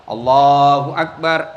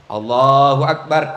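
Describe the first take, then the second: First: Low, slow Allahu Akbar; drawn-out low takbir; demo takbir. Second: Low, slow Allahu Akbar; demo takbir. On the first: (takbir rendah dan pelan) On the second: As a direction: another low drawn takbir. (takbir rendah perlahan) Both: Shown as a demonstration. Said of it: "ada yang begini".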